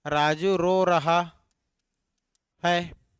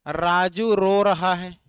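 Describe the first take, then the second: First: Slow dictation. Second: Each word spaced out for writing; slow dictation. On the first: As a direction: dictate it again, slowly, to the class. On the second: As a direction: say it slowly so students can write. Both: Shown as a demonstration. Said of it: "teacher dictating example slowly".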